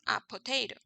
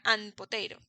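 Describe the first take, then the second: First: No n sound comes between article and noun. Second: An n sound joins the article to the noun. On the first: The speaker calls it right. "queda mejor a potato" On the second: The speaker calls it wrong. "Sería an potato. Mm, mm"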